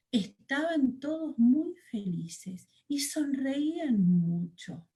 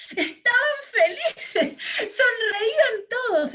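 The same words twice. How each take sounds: First: Said in the usual way. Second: Much higher, louder, laughing narration; beaming, laughing storyteller; joyful. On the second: Shown as a demonstration. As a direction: let the happiness burst through the words. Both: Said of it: "Yo no estoy expresando con mi cara la felicidad".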